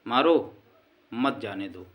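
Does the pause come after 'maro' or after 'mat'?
after maro. The pause comes after the word 'maro'. Hit him; do not let him go. "यानी उसको मारो मत जाने दो"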